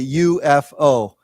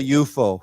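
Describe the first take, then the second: First: It is spelled out as three separate letters. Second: It is read as one single word. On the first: The speaker calls it right. "we say U F O" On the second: The speaker calls it wrong. "we don't say U F O"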